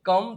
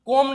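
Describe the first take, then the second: First: The vowel sounds like 'uh'. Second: The vowel sounds like 'oh'. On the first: The speaker calls it right. "કમ થાય છે" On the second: The speaker calls it wrong. "કોમ નહીં"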